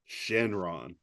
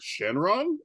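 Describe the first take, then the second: First: The voice falls at the end. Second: The voice rises at the end.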